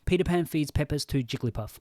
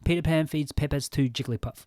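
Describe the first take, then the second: Both takes have the same delivery.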